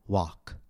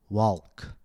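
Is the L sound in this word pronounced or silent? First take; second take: silent; pronounced. First: The L sound is silent in the word. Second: The L sound is pronounced in the word. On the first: The speaker calls it right. "I said walk" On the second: The speaker calls it wrong. "Notice that I did not say walk"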